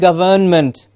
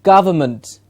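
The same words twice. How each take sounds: First: The middle vowel is full, like in govern. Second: The middle vowel is reduced to a schwa. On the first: The speaker calls it wrong. "Most of the students, when they see the word, start saying" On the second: The speaker calls it right. "So we have three schwa sounds there"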